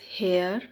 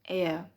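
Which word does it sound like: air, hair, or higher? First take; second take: hair; air. First: It starts with an h and rhymes with care. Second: It starts with a vowel, like air. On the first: The speaker calls it wrong. "It is not pronounced as hair" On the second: The speaker calls it right. "it is pronounced as heir"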